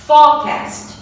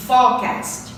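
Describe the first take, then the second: First: FOREcast, first syllable louder; stress on first syllable. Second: FOREcast, weight on the first syllable; teacher models forecast stressed on FORE. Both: Shown as a demonstration. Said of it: "The answer is D".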